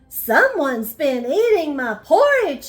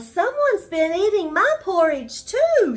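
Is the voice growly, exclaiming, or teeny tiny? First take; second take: growly; exclaiming. First: It is said in a deep growling voice. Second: It is said as a surprised exclamation.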